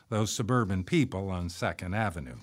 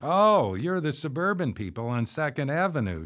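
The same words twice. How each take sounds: First: Said in the usual way. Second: Exclaiming. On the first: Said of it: "I wondered if we would be known as". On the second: A narrator's reading. Woman being introduced to the new neighbors, exclaiming. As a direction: burst out on a high "Oh". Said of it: "she exclaimed as she was introduced to us".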